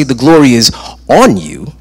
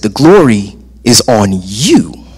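First: "on" set apart and stressed, "you" dropping away; pause, then lean on "on" rather than "you"; first-meaning emphasis. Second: "you" jumps up in pitch after "is on"; stress on you. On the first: Preacher recalling the first meaning, stress on "on". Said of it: "the first time when I say". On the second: Preacher explaining the second meaning, stress on "you". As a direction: punch the final word "you". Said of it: "Now, the second time". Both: Shown as a demonstration.

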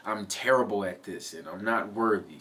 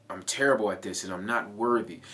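First: Said in the usual way. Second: Quick, harsh self-put-down; harsh self-talk. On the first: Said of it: "Instead of saying". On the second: Shown as a demonstration. Coach demonstrating aggressive self-talk to viewers, fast and harsh. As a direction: spit it out like scolding yourself. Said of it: "Do you hear how aggressive that is".

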